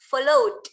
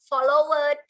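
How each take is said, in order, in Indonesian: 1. Bunyi d langsung menyambung ke kata itu. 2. Akhiran -ed diucapkan sebagai suku kata tersendiri. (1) "langsung ke D. Coba dengerin" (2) "nggak boleh bilang followed"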